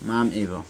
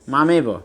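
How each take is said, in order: First: The two words are said separately with a break. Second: The two words are run together as one.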